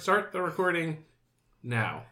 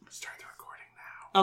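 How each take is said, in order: First: It is said at normal loudness. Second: It is said very quietly.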